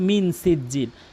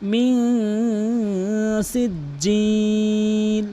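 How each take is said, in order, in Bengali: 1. n টি ছোট ও সাধারণ। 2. n টি নাকের ভেতর দিয়ে ধরে রাখা হয়। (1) "কখনোই বলবেন না" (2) "নাকের ভিতর নিয়ে বলবেন"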